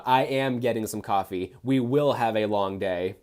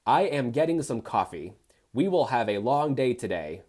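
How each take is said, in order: First: "am" and "will" said in full and stressed; stress on uncontracted words. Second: Said in the usual way. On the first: Shown as a demonstration. Reader mocking the lack of contractions, stressing "am" and "will". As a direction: lean on "am" and "will". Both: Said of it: "showcase of a lack of contractions".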